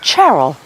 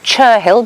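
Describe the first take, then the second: First: The middle 'h' is silent. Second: The middle 'h' is sounded. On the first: This is how local people say it. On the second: This is how the written name looks.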